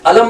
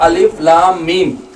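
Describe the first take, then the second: First: The letters are blended into one word. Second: Each letter is named separately. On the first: The speaker calls it wrong. "अलम नहीं पढ़ सकते, जायज नहीं है" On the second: The speaker calls it right. "आपको हर्फ पढ़ना है, मिला के नहीं पढ़ना है"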